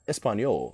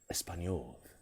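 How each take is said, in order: First: It is said with an English accent. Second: It is said with a Spanish accent.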